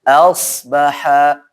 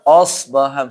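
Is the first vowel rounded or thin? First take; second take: thin; rounded. First: The first vowel is thin and open, like a. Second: The first vowel is thick and rounded, like o. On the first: The speaker calls it right. "Hamzahnya tipis" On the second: The speaker calls it wrong. "Jangan asbaha misalkan oh"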